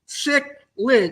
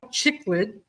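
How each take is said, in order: First: The word begins with a 'sick' sound. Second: The word begins with a 'chick' sound. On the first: The speaker calls it right. "think of the word sick and lid" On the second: The speaker calls it wrong. "Some people call them chicklid"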